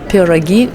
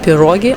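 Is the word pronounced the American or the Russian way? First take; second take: Russian; American. First: The word has a Russian pronunciation. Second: The word has an American English pronunciation. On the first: "I said пироги" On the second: "the American way of pronunciation is for some reason pirogi"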